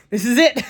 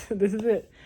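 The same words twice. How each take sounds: First: This is it, louder and higher, hammed-up; mock doom. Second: Said in the usual way. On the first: Alone at home joking about choking on a potato, hammed-up doom. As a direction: play it like the end has come.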